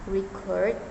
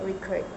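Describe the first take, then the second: First: The stress is on the first syllable. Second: The stress is on the second syllable. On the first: It is a noun. "with stress on the first syllable" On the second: It is a verb. "stressing in the second syllable"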